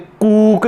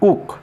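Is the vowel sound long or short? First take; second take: long; short. First: The vowel is a long oo sound. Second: The vowel is a short oo sound. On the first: The speaker calls it wrong. "कूक नहीं पढ़ेंगे" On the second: The speaker calls it right. "यानी ऊ छोटा sound में है ना"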